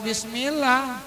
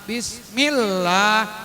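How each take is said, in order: First: The L sound is short and single. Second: The L sound is held and doubled. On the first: The speaker calls it wrong. "Nggak boleh Bismillah. Kalau Bismillah berarti nggak pakai tasdid" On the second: The speaker calls it right.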